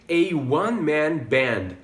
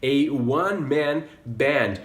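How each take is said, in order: First: "a one-man band", "one" said as "wun"; slow "a one-man band" with a w start; "one" starting with a w sound; model pronunciation. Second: "A one-man band" slowly, with a w start; "one" as "wun"; "A one-man band" again; repeat model. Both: Shown as a demonstration. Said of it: "E por último também".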